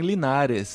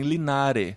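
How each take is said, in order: First: The final s sound is pronounced. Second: The final s sound is dropped. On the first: "a gente não mora em Linares" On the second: "tirar o S no final"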